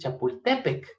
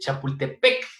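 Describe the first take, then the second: First: The stress falls on the second-to-last syllable. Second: The stress falls on the final syllable. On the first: The speaker calls it right. "le pones el acento hasta la E, entonces es" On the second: The speaker calls it wrong. "tenemos la costumbre de decir"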